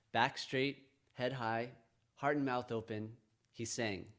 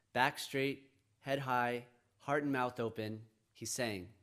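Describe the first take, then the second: No difference in how they are said.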